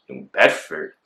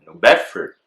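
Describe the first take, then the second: First: Baffled, questioning echo; confused. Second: Said in the usual way. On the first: Retold or imitated. Suspect echoing officers about the warrant, confused. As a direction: repeat it as a puzzled question. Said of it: "mad confused and mad, like, disoriented".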